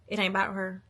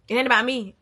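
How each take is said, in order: First: Said in the usual way. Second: It ain't about me, with "me" hit hard and loud; a loud declaration that this is not about "me"; stress on me. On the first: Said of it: "I was saying that in the two-person view". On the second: Shown as a demonstration. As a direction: punch the word "me" and make it louder. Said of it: "y'all know what I'm saying".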